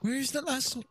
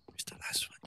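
First: Said in the usual way. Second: Whispered search; whispering. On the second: Real, not acted. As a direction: breathe it out in a whisper. Searching in game.

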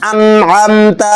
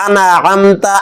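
First: আনআমতা with a silent-vowel nun, no extra vowel; sakin nun. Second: আনাআমতা with a vowel after the nun; wrong ana-amta. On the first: Teacher models আনআমতা with sakin on nun. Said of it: "নুনের উপর সাকিন". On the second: Teacher mimics the mistaken আনাআমতা. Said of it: "অনেকে বলে আনাআমতা". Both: Shown as a demonstration.

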